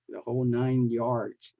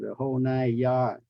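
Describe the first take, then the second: First: The last word ends with an s sound. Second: The last word ends without an s sound. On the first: The speaker calls it right. "pronounce them correctly" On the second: The speaker calls it wrong. "Don't say"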